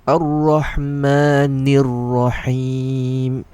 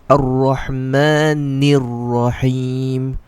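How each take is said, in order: The two takes are said the same way.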